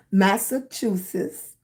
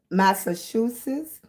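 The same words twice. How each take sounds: First: "Massachusetts" spelled out slowly, syllable by syllable; careful slow "Massachusetts". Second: Said in the usual way. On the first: Shown as a demonstration. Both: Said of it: "I have to say it very slow".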